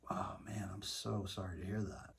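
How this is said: It is said in a soft, sincere tone.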